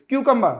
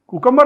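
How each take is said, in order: First: The first syllable sounds like 'kyoo'. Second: The first syllable sounds like 'koo'. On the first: The speaker calls it right. "It's क्यूकम्बर" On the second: The speaker calls it wrong. "ये कुकम्बर नहीं"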